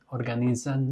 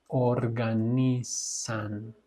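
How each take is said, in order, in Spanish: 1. La sílaba final tiene un sonido de z vibrante. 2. La sílaba final tiene un sonido de s silbante. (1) "organizan no" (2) "es organizan, san, como Nissan"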